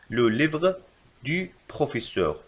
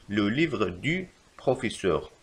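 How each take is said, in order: First: Slow, in two chunks; slow dictation. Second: Very slow, in one go; slow repeat. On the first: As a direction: dictate the correction slowly. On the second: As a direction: repeat it slowly. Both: Shown as a demonstration. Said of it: "يجب كتابة".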